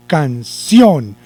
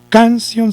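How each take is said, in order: First: "canción" slowly split, long emphatic CIÓN; stress on CIÓN. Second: "canción" with high CAN and quick weak ción; wrong stress on CAN. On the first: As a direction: correct it by leaning on the last syllable of canción. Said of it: "sino canción". (canción con el acento marcado en ción) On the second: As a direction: show the mistake, CÁN-cion. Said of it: "No canción, sino canción". (canción con el acento equivocado en can) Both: Shown as a demonstration.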